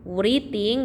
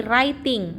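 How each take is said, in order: First: "writing" as wri-ting, w sounded and ee vowel; audible w opening "writing"; spelling pronunciation. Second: "writing" as rai-ting, no w; silent W. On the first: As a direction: read "writing" as written, wree-ting. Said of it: "W-nya tidak dibaca". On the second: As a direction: start "writing" straight on the r. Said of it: "W-nya tidak dibaca ya". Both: Shown as a demonstration.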